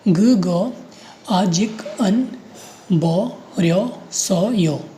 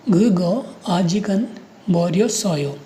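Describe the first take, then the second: First: ग, ग, आजिक, अन, बो, रियो, सो, यो in separate pieces; syllable by syllable. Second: Said in the usual way. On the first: Shown as a demonstration. Teacher reading out the last row, piece by piece with pauses. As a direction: sound out ग, ग, आजिक, अन, बो, रियो, सो, यो with short gaps. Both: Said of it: "रो में पढ़िए".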